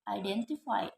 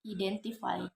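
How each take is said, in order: First: The first vowel is an I diphthong. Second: The first vowel is a plain E sound. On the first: The speaker calls it right. "this word should be pronounced identify" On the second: The speaker calls it wrong. "They tend to replace the diphthong I with E"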